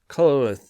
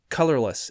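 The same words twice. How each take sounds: First: The word is said slurred together. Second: The word is said clearly and carefully. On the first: The speaker calls it wrong. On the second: The speaker calls it right.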